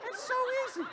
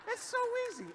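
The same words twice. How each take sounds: First: Light breathy falsetto sigh; high falsetto. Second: High falsetto. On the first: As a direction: float it up high and easy. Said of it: "high falsetto". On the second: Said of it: "repeated high". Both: Shown as a demonstration.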